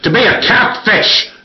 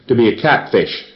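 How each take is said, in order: First: It is said loudly, almost shouted. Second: It is said in a calm, crisp, even voice. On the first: The speaker calls it wrong. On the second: The speaker calls it right.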